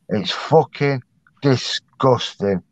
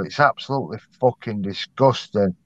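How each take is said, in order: First: "disgusting" drawn out slowly, syllable by syllable; emphatic condemnation. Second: Said in the usual way. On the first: Real, not acted. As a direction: hammer it home, pausing before a slow "disgusting". Repeats his verdict for emphasis.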